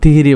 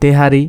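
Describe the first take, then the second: First: The first two vowels are both i. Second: The first two vowels are e and a. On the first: This is how people in the village say it. "আমাদের তো তিহিরি বলে, মানে গ্রামের ভাষায়" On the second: This is the commonly known form. "আর যেটা জানি সেটা হচ্ছে তেহারি"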